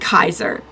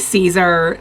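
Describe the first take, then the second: First: The name starts with a hard K sound. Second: The name starts with a soft S sound. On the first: "in the Latin pronunciation, so it sounds more like Kaiser" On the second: "the way that we've heard it"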